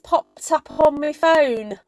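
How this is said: It is said in a Cockney-like London accent. The speaker calls it right. "that's more Kim"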